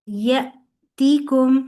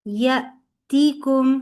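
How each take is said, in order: The two takes are said the same way.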